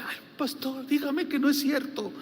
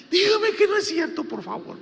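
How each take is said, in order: First: A lightly voiced tearful sister, higher; mild imitation of a crying woman begging; tearful plea. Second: High and loud, imitating a sobbing sister; desperate crying plea. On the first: Sister begs her pastor, mildly tearful imitation. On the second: Sister begs her pastor to deny it, high imitated wail. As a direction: cry out the plea, then drop. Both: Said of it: "ella lloraba".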